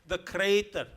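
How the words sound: The first vowel is an 'ay' sound. "which we pronounce the crater"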